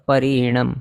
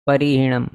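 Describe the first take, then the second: No difference in how they are said.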